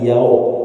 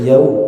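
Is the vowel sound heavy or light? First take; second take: heavy; light. First: The vowel is said heavy and thick. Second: The vowel is said light and thin. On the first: The speaker calls it wrong. "bukan yao" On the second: The speaker calls it right. "Jangan ditebalkan di wawu sukun"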